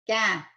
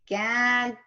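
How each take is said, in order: First: The first syllable is stressed; the second is reduced. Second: Both syllables are stressed with full vowels. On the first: "if I said it naturally" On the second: "I have equally stressed both syllables"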